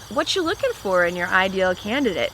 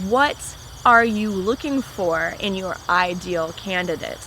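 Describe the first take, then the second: First: The words are reduced and blended together. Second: Each word is said clearly and separately. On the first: It sounds casual. The speaker calls it wrong. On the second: It sounds more professional. The speaker calls it right. "separate my words to sound more professional"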